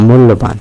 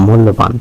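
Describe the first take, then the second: Both takes have the same delivery.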